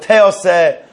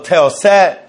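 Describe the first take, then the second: First: The stress falls on the first syllable. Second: The stress falls on the last syllable.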